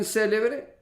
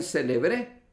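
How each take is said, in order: First: Célebre con acento en la primera sílaba, lento y marcado; célebre, esdrújula. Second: Celebré con acento en la última sílaba; celebré, aguda. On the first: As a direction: pronuncia célebre como CÉ-le-bre, despacio. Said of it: "si usted quiere escribir célebre". (célebre con el acento en CÉ, pronunciado despacio) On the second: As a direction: marca el final de celebré: ce-le-BRÉ. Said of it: "al igual que escriben celebré". (celebré con el acento en BRÉ) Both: Shown as a demonstration.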